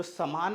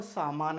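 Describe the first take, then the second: First: समान with a brief a after स; short first vowel. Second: सामान with aa held after स; long first vowel. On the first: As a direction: keep the first syllable of समान short, then long maan. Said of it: "समान अलग होता है". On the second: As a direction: stretch the first syllable of सामान to saa. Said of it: "और सामान अलग होता है". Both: Shown as a demonstration.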